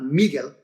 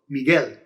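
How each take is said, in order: First: The stress is on the first syllable. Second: The stress is on the last syllable. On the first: The speaker calls it wrong. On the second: The speaker calls it right. "So you stress the last syllable"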